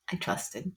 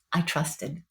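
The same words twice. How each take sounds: First: Softer, rueful repeat; quiet regret. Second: Said in the usual way. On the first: Real, not acted. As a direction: say it again to yourself, barely aloud.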